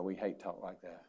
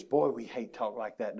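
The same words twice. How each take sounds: First: Softly echoing the line to the congregation; quiet rueful repeat. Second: Said in the usual way. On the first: Shown as a demonstration. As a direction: repeat it much softer, HATE held a beat.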